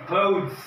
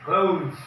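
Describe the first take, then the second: Both takes have the same delivery.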